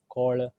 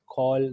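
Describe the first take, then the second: First: The word is said with a curled, twisted tongue. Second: The word is said with a plain, relaxed tongue. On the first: The speaker calls it wrong. "they'll say call, right? ... Twisting the tongue" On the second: The speaker calls it right. "instead of saying a call"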